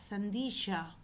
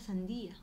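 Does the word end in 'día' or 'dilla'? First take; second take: dilla; día. First: The word ends with a 'dilla' sound. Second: The word ends with a 'día' sound. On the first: The speaker calls it wrong. "los fruteros decían sandilla" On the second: The speaker calls it right. "pero en verdad era sandía"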